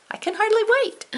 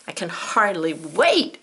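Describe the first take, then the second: First: Much higher, eager squeal; excited. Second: Said in the usual way. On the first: Real, not acted. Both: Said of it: "Ooh, so excited".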